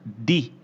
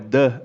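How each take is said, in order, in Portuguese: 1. A vogal é um som de 'ee' longo. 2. A vogal é um som de 'uh' curto e fraco. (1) "em momentos como esse que eu tô dando essa ênfase enorme, eu tenho que falar de" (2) "é the, né? Porque guy começa com G e tem som de G"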